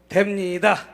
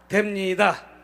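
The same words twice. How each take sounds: Both takes have the same delivery.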